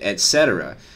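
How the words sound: It is pronounced in the common English way. This is how nearly everyone says it. The speaker calls it wrong. "everybody except for one person I've ever heard pronounces it"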